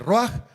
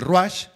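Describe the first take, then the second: First: The word ends with a throaty 'h' sound. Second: The word ends with a 'ch' sound. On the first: "lo puede leer con la J al final" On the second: "o la puede leer con una C H"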